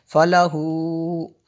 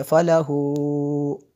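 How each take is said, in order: First: फलाहू with the final हू drawn out, very slow; extended madd. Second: फलाहू with the हू stretched even longer; longer madd. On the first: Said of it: "मैंने थोड़ा ज़्यादा लंबा किया". (फलाहू में मद को लंबा करें) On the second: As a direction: stretch फलाहू's final vowel well past normal. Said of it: "थोड़ा ज़्यादा लंबा किया". (फलाहू का मद ज़्यादा लंबा) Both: Shown as a demonstration.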